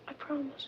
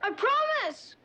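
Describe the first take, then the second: First: It is said quietly. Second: It is said loudly.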